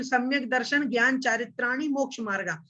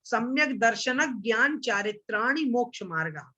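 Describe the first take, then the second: First: दर्शन ज्ञान said as "darshan gyan", words apart; unjoined reading. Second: दर्शन ज्ञान linked as "darshanag-gyan"; joined conjunct. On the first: Teacher quoting the common mistake, दर्शन ज्ञान left unjoined. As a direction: keep दर्शन separate from ज्ञान. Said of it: "ऐसे नहीं". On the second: Teacher modelling the correct recitation, दर्शन ज्ञान joined as darshanag-gyan. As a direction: close दर्शन onto the first sound of ज्ञान: darshanag-gyan. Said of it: "ऐसे आपको इसका उच्चारण करना है". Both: Shown as a demonstration.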